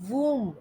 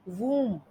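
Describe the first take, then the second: The two takes are said the same way.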